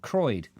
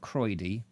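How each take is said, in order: First: The name is said as one syllable. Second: The name is said as two syllables. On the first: The speaker calls it right. "just Croyd" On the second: The speaker calls it wrong. "not Croydie"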